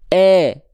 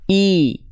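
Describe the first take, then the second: First: The vowel sounds like a lower 'eh' sound. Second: The vowel is a clear, high 'ee' sound. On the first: The speaker calls it wrong. "Kalau tengah lidahnya nggak naik" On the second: The speaker calls it right. "Sekarang tengah lidahnya diangkat"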